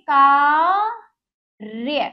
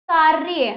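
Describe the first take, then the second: First: कार्य drawn out very slowly, the र clearly over य; careful correct form. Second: Said in the usual way. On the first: Shown as a demonstration. Teacher to children, slowly modelling कार्य. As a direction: stretch कार्य slowly to show the correct sound. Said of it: "हम इसको सही करेंगे". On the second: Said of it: "ये गलत है बच्चों".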